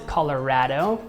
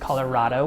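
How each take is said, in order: First: It is pronounced the way Colorado locals say it. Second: It is pronounced the way Washington natives say it. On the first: "locals pronounce it Colorado" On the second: "I'm a Washington native, so I pronounce it Colorado"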